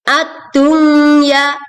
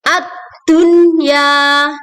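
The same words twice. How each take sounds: First: The n is nasalized and merged into the next sound. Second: The n is pronounced clearly, without nasal merging. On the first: The speaker calls it wrong. "bukan dibaca ad-dunya" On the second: The speaker calls it right. "maka nun di sini dibaca dengan jelas, idhar"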